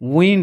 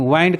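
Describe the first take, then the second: First: The vowel sounds like the one in win. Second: The vowel sounds like the one in wine. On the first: This is the word's usual pronunciation. "असल में ये wind है" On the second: It is said this way to rhyme with find. "वाइंड करना जरूरी हो जाता है rhyme बनाने के लिए"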